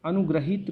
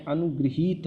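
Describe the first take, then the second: First: अनुग्रहित with "gra" in the middle; wrong "gra" syllable. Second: अनुगृहीत with "gri" and a long "heet"; "gri" syllable. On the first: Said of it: "रा की मात्रा नहीं है". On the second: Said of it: "री की मात्रा है". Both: Shown as a demonstration.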